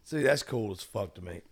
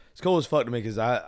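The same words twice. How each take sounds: First: Hoarse voice. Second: Said in the usual way. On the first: Real, not acted. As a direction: voice going hoarse, nearly gone. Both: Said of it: "I am literally losing my voice".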